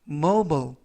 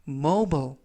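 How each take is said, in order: The two takes are said the same way.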